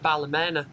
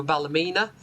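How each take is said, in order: First: Ballymena with the third syllable as MEN; alternative place-name pronunciation. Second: Ballymena with a long EE in MENA; alternative place-name pronunciation. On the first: Driver giving local variants of the town name, MENNA pronunciation. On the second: Driver giving local variants of the town name, MEENA pronunciation. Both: Shown as a demonstration. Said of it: "depending on who you speak to".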